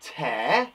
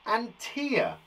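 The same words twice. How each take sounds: First: "Tear" said to rhyme with bear; "Tear" with an air sound, as in ripping paper; teacher contrasting "Tear" with an air sound; tear as in rip. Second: "tear" said to rhyme with ear; "tear" with an ear sound, like a teardrop; teacher contrasting "tear" with an ear sound; tear as in crying. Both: Shown as a demonstration. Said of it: "Again, we say differently".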